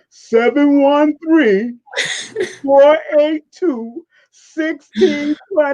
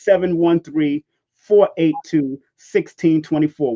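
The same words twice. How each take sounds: First: The digits are read at a slower pace. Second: The digits are read at a quicker pace.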